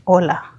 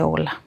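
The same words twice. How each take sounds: First: Said in the usual way. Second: Soft, timid hello, barely voiced; shyly answering a stranger who spoke first. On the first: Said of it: "lo miré y le dije". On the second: Scared woman answers the man's greeting shyly and softly. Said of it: "Con timidez contesté".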